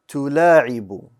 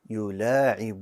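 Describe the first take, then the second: First: The word begins with a 't' sound. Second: The word begins with a 'y' sound. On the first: The speaker calls it wrong. "I pronounced the ya as a ta" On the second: The speaker calls it right. "It should be يلاعب"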